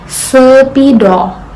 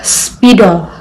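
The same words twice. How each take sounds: First: A short vowel is inserted between s and p. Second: The s and p are joined without vowel. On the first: The speaker calls it wrong. "mereka menambahkan vokal di antara S dan P" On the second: The speaker calls it right. "Diucapkan sebagai dua bunyi konsonan yang berurutan"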